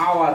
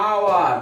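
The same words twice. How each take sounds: First: Said in the usual way. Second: আওয়ার stretched, opening straight on "aa"; silent-h pronunciation. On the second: Shown as a demonstration. Teacher showing the silent h, drawn-out আওয়ার. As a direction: draw out আওয়ার with no h at the start. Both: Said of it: "খেয়াল করো এইচ এর উচ্চারণ আ হচ্ছে".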